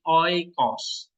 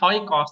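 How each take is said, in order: First: The word begins directly with a vowel. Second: The word begins with an h sound. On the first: The speaker calls it right. "tapi oikos" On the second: The speaker calls it wrong. "Bukan hoikos"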